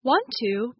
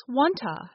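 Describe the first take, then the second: First: Said in the usual way. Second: "wanta" ending in a short uh; vowel reduced to schwa. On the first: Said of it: "Want to becomes wanta". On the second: Shown as a demonstration. Teacher showing schwa reduction, "wanta" ending in uh. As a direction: say "wanta" with "to" weakened to "tuh". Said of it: "gets reduced to another vowel sound".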